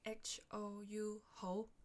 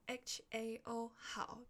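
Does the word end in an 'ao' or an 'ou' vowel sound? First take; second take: ou; ao. First: The word ends in an 'ou' vowel sound. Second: The word ends in an 'ao' vowel sound. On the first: This is the Cantonese pronunciation. "变成HOU 猴" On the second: This is the Mandarin pronunciation. "从HAO 好"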